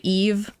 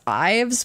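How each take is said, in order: First: The name has a long 'ee' vowel and ends in 'v'. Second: The name has a long 'eye' vowel and ends in 'vz'. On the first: This is the intended pronunciation of the name. The speaker calls it right. "it's actually Eve. That's how you're supposed to pronounce the name" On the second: This is how the speaker used to read it. The speaker calls it wrong. "I used to read it as Ives"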